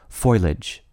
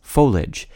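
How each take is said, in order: First: The first syllable sounds like the word foil. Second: The ending is one syllable, like marriage. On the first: "even more irksome to some people" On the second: "consistent with the pronunciation of the I-A-G-E ending in words like marriage and carriage"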